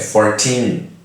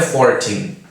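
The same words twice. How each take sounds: First: The stress is on the second syllable. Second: The stress is on the first syllable. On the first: It is heard as the number fourteen. The speaker calls it right. "você tem que enfatizar o final da palavra" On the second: It sounds like the number forty. The speaker calls it wrong. "não é fourteen"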